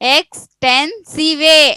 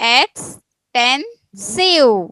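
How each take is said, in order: First: The word ends with an added vay sound. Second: The word ends in a plain v sound. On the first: The speaker calls it wrong. "ವೇ ಅನ್ಬೇಕಾ" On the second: The speaker calls it right. "ಸಿವ್ ಅನ್ನೋದು"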